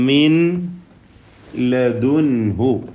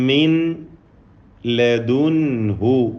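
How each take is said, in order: The two takes are said the same way.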